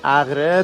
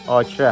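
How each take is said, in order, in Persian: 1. این اسم در وسطش صدای 'gh' حلقی دارد. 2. این اسم در وسطش صدای 'k' سخت دارد. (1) "اسم عربیشو نوشته اغره" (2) "تلفظ درست کردیش آکره هست"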